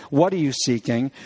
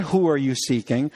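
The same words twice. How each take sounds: First: What stressed as the correct question; emphasize What, correcting the question. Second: WHO stressed as the rejected question; emphasize Who, the wrong word here. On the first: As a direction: lean on the word What. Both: Shown as a demonstration. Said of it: "notice this carefully".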